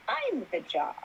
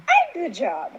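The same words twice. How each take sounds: First: Softly said to oneself, higher pitch; retold hushed moment of revelation; awed realization. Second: High-pitched retold revelation; repeated self-affirmation. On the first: Retold dawning realization to herself. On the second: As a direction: repeat it to yourself with growing conviction. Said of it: "I kept repeating that to myself".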